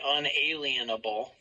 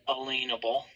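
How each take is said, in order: First: The middle sounds like the word alien. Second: The middle sounds like the word lien. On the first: The speaker calls it wrong. "We don't say unalienable" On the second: The speaker calls it right. "We say unalienable"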